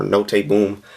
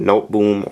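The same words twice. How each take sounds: First: "Note" with the final e voiced as "ay"; two-syllable Note. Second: "Note" rhyming with boat, silent e; one-syllable Note. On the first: Reviewer offering another brand pronunciation, Note said "no-tay". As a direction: say Note as "no-tay" before Boom. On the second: Reviewer guessing at the brand name, Note said as one syllable. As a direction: say Note as one syllable, "noht", before Boom. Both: Shown as a demonstration. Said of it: "don't know the exact way to pronounce it".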